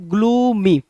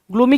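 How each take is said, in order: First: gloomy drawn out, both syllables long and falling; gloomy tone. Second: Said in the usual way. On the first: Shown as a demonstration. Teacher shows students the word's meaning by tone, gloomy drawn out gloomily. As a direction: stretch gloomy so its tone carries the meaning. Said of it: "पढ़ते ही इसके tone से इसकी meaning समझ में आनी चाहिए". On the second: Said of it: "इसके tone से इसकी मीनिंग".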